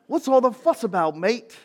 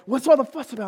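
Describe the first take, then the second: First: It is said in an Australian-sounding accent. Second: It is said in the speaker's plain accent.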